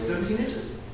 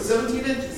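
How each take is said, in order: First: It is said with slight hesitation and questioning. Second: It is said quickly and loudly, with certainty. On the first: The answerer is somewhat more certain. "A little bit less hesitation, a little bit less question in the voice" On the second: The answerer is certain of the answer. "several people shout out pretty quickly"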